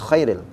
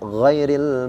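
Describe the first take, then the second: First: The word begins with a voiceless, rasping kh sound. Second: The word begins with a voiced, gargled gh sound. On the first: The speaker calls it wrong. "Bukan khairil" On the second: The speaker calls it right. "tapi ghairil"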